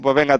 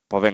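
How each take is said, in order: First: It sounds cheerful, laughing and chatty. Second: It sounds serious and neutral. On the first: The call feels like a chat between friends. The speaker calls it wrong. "Esto no es una charla de amigos" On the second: The call is a serious professional consultation. The speaker calls it right. "tu tono es serio"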